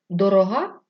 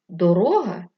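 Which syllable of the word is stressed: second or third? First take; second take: third; second. First: The stress is on the third syllable. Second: The stress is on the second syllable. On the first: It means expensive. "Дорога – річ, яка коштує багато грошей" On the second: It means a road. "Дорога – це смуга землі"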